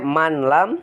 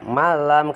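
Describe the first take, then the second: First: The n before the l is pronounced separately. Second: The n merges into the following l. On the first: This is the underlying form. "Asalnya manlam" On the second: This is how it is actually read. "tapi dibaca malam"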